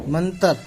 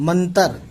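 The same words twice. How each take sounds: No difference in how they are said.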